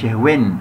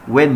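First: When said as "hwen"; wrongly sounded h. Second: When said as "wen", no h; silent h. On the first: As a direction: put an h before the w of when. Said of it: "مش when". (when بهاء منطوقة في الأول) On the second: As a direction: open when straight on w. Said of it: "when مش when". (when من غير هاء) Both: Shown as a demonstration.

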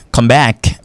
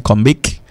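First: "come back" with an open A in "back"; correct vowel demo. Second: "come back" mispronounced as "come bek"; wrong vowel demo. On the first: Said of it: "on qu'a dit". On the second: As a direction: say "back" with a closed E sound. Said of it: "Même pas qu'a dit". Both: Shown as a demonstration.

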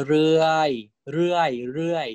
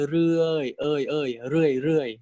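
First: เรื่อย said with an R-like sound, shown as the wrong way; wrong pronunciation. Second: เรื่อย with a vowel like E, falling tone; correct pronunciation. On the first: Teacher showing students the wrong เรื่อย, with an R sound. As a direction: say เรื่อย with a rolled R, as the mistake to avoid. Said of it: "I don't say". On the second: Teacher showing students the right เรื่อย, E-like vowel. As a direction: say เรื่อย with no R, leaning toward an E sound. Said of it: "I say". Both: Shown as a demonstration.

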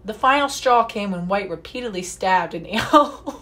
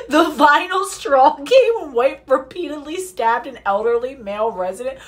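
First: Said in the usual way. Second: Reads the line again, this time in a British accent; slightly higher, louder British accent on the news line. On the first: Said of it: "you wanna hear me do a British accent?". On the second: Shown as a demonstration. Reading the news article to viewers in a put-on British accent. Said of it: "you wanna hear me do a British accent? Oh, I'll do one".

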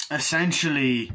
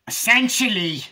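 First: Said in the usual way. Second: "essentially" high, loud and overdone; mock your own way of saying "essentially"; exaggerated own pronunciation. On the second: Shown as a demonstration. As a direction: belt out "essentially" in a raised pitch. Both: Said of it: "the way I say".

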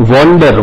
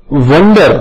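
First: વન્ડર said "WON-der", as in wander; "o" vowel in વન્ડર. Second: વન્ડર said "WUN-der", as in wonder; short "uh" vowel in વન્ડર. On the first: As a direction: round the first vowel of વન્ડર to "o". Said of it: "ત્યાં ઓ ઉચ્ચાર થાય છે". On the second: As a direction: say વન્ડર with an open-neutral "uh", not "o". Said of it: "ત્યાં અ ઉચ્ચાર થાય છે". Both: Shown as a demonstration.

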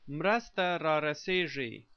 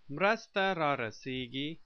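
First: Mrasta rarasigi with zh for the g; alternative pronunciation. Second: Mrasta rarasigi with a hard g; first pronunciation. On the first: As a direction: say mrasta rarasigi ending in -see-zhee. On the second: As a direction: say Mrasta rarasigi ending in -see-gee. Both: Shown as a demonstration. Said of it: "also pronounced".

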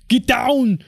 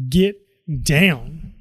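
First: "Get down." shouted higher and louder; Arnold Schwarzenegger. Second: Said in the usual way. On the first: Retold or imitated. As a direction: bark "Get down." like an action hero. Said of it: "my best Arnold Schwarzenegger impression".

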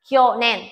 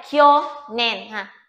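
First: Said in the usual way. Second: "Kyo nen" stretched out slowly, syllable by syllable; slow demo. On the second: Shown as a demonstration. Teacher slowing down for students, slow demo reading. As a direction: draw out "Kyo nen" so students can follow. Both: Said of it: "Đây, kyo đây".

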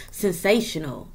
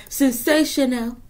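First: Said in the usual way. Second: Slow, lifted "Sensational" to a client; drawn-out admiring "Sensational". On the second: Shown as a demonstration. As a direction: stretch "Sensational" slowly and higher.

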